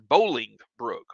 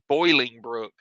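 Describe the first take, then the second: First: The first syllable sounds like 'bowl'. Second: The first syllable sounds like 'boil'. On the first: The speaker calls it right. "It's not boiling. It's Bowling Brook" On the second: The speaker calls it wrong. "I always say that wrong. I always say Boiling Brook"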